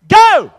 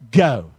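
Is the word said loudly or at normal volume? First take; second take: loudly; normal volume. First: It is said loudly. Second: It is said at normal volume.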